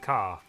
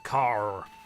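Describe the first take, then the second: First: The word is said in an Australian accent. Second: The word is said in a non-Australian accent. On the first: "Australian pronunciations is car" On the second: "everyone else is like, no, it's a car"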